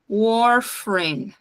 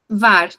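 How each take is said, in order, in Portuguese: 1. A palavra começa com som de W. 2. A palavra começa com som de V. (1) "E eles falam warfarin" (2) "a gente fala var, farina"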